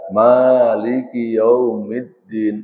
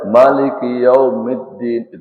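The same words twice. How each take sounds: First: The first vowel of Maliki is drawn out long. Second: The first vowel of Maliki is kept short. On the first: It counts as four letters. "berarti empat huruf" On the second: It counts as three letters. "itu tiga huruf"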